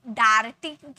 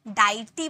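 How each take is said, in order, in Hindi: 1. पहला स्वर 'ar' जैसा बोला जाता है। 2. पहला स्वर 'eye' जैसा बोला जाता है। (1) "डार्टी बोले क्या" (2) "डाइटी बोले क्या"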